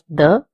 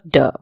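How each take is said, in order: First: The d is soft, like English th. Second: The d is hard, like English d. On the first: The speaker calls it right. "D in Spanish is pronounced as the" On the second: The speaker calls it wrong. "instead of de"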